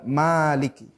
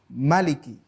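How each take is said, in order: First: The first vowel is said long. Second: The first vowel is said short. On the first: "tidak Maliki" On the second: "itu membacanya pendek. Maliki ya"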